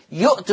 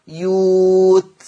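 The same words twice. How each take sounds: First: "يؤت" with a glottal stop after the first short u; written hamza form. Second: "يوت" with a long held oo and no glottal stop; hamza turned to waw. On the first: Teacher citing the word before its Warsh reading, hamza pronounced. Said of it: "يؤت تقرأ يوت". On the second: Teacher showing how Warsh reads it, long slow vowel. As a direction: draw out the oo in "يوت" smoothly. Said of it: "تقرأ يوت". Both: Shown as a demonstration.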